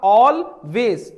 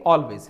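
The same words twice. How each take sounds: First: It has a short pause between its two parts. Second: It is said smoothly together with no pause. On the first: "थोड़ा सा रुक के" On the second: "एक साथ"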